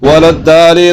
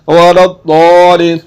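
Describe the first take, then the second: First: The doubled consonant is a plain light d. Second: The doubled consonant is a heavy emphatic sound. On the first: The speaker calls it wrong. "अगर इसको पढ़ दिया वलद्दालिन ... जो कि गलत है" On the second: The speaker calls it right. "तो इसको पढ़ना है वरद्दौलिन। कैसे पढ़ना है?"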